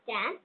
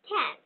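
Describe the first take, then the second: First: The first k sound has no puff of air. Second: The first k sound has a strong puff of air. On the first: The speaker calls it wrong. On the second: The speaker calls it right. "ক্ষয়ের মতো উচ্চারণ করব"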